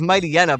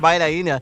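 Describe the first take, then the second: First: The name begins with the sound 'mighty'. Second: The name begins with the sound 'might'. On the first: "It's Mighty Hyena" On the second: "why did I pronounce it like that?"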